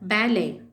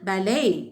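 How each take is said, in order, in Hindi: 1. इसे British English उच्चारण में बोला गया है। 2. इसे American English उच्चारण में बोला गया है। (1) "பிரிட்டிஷ் இங்கிலீஷ்ல" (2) "அமெரிக்கன் இங்கிலீஷ்ல"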